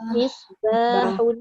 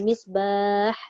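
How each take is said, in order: First: The word ends with an added -un sound. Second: The word ends abruptly without a final -un. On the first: The reciter joins it to the next word. "Tapi bila dia sambung misbahun" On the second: The reciter stops after this word. "Kalau berhenti tidak ada"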